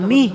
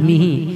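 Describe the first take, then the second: First: The word ends on a bare h sound. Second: The word ends with a short vowel after h. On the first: "যখন আমরা ওয়াকফ করলাম তখন মিহ বলে রেখে দেব" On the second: "হা করে জের হি"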